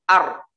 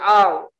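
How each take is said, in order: First: The consonant is a trilled r. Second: The consonant has no trill, like an l. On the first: The speaker calls it right. "ro itu tetap bergetar" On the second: The speaker calls it wrong. "Nggak ada getarannya juga salah"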